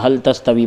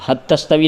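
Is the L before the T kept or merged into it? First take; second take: kept; merged. First: The L is pronounced clearly before the T. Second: The L merges into the following T sound. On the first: This reciter read it this way. "इजहार के साथ पढ़ा है" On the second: This reciter did not read it this way. "नहीं पढ़ा"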